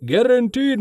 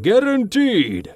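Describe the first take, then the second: First: High booming sales pitch. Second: High booming close with a falling tune. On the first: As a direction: boom it out like a huckster. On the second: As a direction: boom the word home like a huckster. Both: Acted. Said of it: "he boomed".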